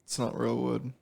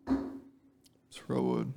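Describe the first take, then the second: First: Said in the usual way. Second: Slow drawn-out whisper. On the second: Shown as a demonstration. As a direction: whisper it very slowly.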